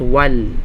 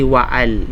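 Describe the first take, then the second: First: The word is said as one linked syllable. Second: The word is said as two separate syllables. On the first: The speaker calls it right. "Kaya nga wal" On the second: The speaker calls it wrong. "hindi waal"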